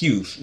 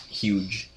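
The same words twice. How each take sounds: First: "Hughes" with a breathy h and a long u, ending in s; correct Hughes. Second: "huge" said slowly as the English word for big; "huge" drawn out with a hard j, slow; wrong huge. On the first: Teaching a friend the name: "Hughes" said carefully. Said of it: "Es Hughes, no es huge". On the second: Contrasting the wrong word for a friend: slow "huge". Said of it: "no es huge". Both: Shown as a demonstration.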